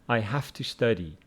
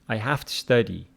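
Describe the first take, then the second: Both takes have the same delivery.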